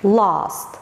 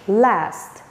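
First: British accent, with a long open 'ah' vowel. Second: American accent, with the short vowel as in cat. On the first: "In British English" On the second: "in American English"

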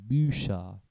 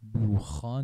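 First: The ch is pronounced as a soft sh sound. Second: The ch is pronounced as a harsh kh sound. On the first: The speaker calls it right. "قبل از این ترکیب سه ها اگه املاوت بیاد صدای ش میده" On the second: The speaker calls it wrong. "بوخا نمیگیم"

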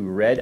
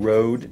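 First: The name has a short e-like vowel, like red. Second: The name has a long o vowel, like road. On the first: "some people may pronounce this red. I guess that's an accent O" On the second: "It actually changes that from Rode to red"

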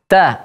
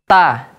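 First: The t is released with a slight puff. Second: The t is released dry, with no air. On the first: The speaker calls it right. "tapi ta, ada angin sedikit keluar" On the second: The speaker calls it wrong. "tidak kita baca kering. Contoh ta, tidak"

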